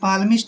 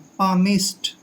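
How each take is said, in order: First: The L sound is pronounced. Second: The L sound is silent. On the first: The speaker calls it wrong. "ऐसे पाल्मिस्ट नहीं पढ़ना है" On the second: The speaker calls it right. "पामिस्ट पढ़ना है"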